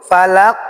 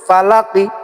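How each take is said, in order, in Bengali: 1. শেষে ধাক্কা দিয়ে কলকলা করে একটি হরফে শেষ হয়। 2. দ্রুত বললে, একটি হ্রস্ব স্বরবর্ণে শেষ হয়। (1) "ধাক্কা দিয়ে কলকলা করে পড়তে হবে" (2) "হরকত হলে তাড়াতাড়ি করে বলতে হয়"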